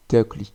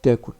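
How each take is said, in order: First: Takli said with no vowel between k and l; teacher models takli, O removed; takli with the O dropped. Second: Takul said with a light O between k and l; teacher models takul, O kept. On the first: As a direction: drop the O, takli straight through. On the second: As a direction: give takul the light O, and say it out loud. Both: Shown as a demonstration. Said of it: "on peut le supprimer".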